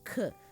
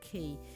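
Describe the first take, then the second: First: The letter is said the Dutch way. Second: The letter is said the English way. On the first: The speaker calls it right. "but as a K" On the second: The speaker calls it wrong. "you don't pronounce it as a K"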